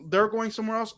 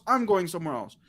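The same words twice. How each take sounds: First: "they're" picked out, set against oneself; stress on THEY'RE. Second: "I'm" picked out, rest falling away; stress on I'M. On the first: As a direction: lean on "they're" to point at others. Contrasts them with herself. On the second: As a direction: lean on "I'm" to set oneself apart. Contrasts self with the others. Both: Retold or imitated.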